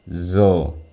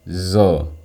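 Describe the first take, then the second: Both takes have the same delivery.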